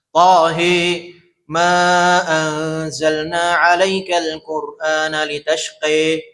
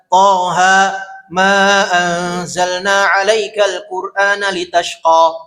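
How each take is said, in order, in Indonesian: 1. Huruf mad panjang di akhir terdengar seperti e. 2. Huruf mad panjang di akhir terdengar seperti a terbuka. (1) "Imalah dibaca e" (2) "Ada yang dibaca dengan fath, fathah"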